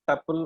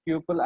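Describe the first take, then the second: First: "tuple" said as TUP-ul; alternative pronunciation. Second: Said in the usual way. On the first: Shown as a demonstration. Teacher showing how some Python practitioners say it, "tuple" as TUP-ul. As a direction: say "tuple" with a short first vowel, rhyming with supple. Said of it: "will pronounce tuple as tuple also". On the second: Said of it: "pronunciation as tuples".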